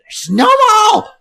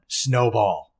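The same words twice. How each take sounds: First: It is screeched loudly and excitedly. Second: It is said calmly at normal loudness.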